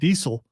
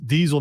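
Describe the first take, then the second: First: The middle consonant is a hissing s sound. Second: The middle consonant is a buzzing z sound. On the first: The speaker calls it wrong. "not Diesel" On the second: The speaker calls it right. "it's Diesel"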